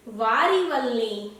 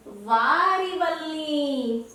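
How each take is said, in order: First: Slow, fond "वारी वल्ली" with "वारी" stressed. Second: "वारी" stretched very slowly with a falling tune. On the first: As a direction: draw out "वारी वल्ली" gently. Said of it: "तो वो क्या कहती है?". ("वारी वल्ली" धीरे और ज़ोर देकर) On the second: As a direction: spell out "वारी वल्ली" word by word, very slowly. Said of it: "बाली नहीं". ("वारी वल्ली" बहुत धीरे, खींचकर) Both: Shown as a demonstration.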